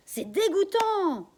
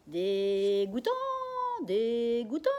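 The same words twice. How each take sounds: First: High, loud, slow outraged shout; outraged cry. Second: Loud, slow parrot squawk; parrot repeating. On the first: Daughter outraged at the bank bosses, loud shout. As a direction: spit out the disgust. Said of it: "je crie". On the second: Parrot Jaco echoing the daughter, loud squawk. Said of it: "répète Jaco". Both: Acted.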